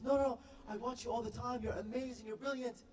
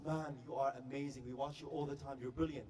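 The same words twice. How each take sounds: First: Put-on high-pitched gushing girl fan; starstruck British girl. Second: Lower, understated guy's voice; male fan. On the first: British girl praising the YouTube guy, high starstruck voice. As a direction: gush in a high girl's voice. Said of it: "she's shaking, she's sweating". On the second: Retold or imitated. Guy friend praising the star, low-key male voice. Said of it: "And the guy says".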